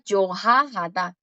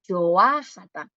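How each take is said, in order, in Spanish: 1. El sonido de la h después de la primera sílaba se pronuncia. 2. El sonido de la h después de la primera sílaba es mudo. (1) "no suena yohajata" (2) "suena yoahata, sin la J aquí"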